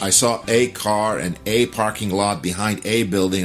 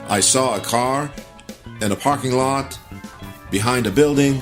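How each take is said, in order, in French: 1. Chaque « a » est un « ay » plein et fort. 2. Chaque « a » est un « uh » court et faible.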